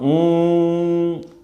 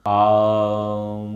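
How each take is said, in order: First: The word begins with a long oo vowel. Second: The word begins with a long aa vowel. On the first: "उसका उच्चारण होगा ऊम। ऊ है ना, बड़ा ऊ की मात्रा है" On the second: "बोले ओम नहीं है, आ है, आम।"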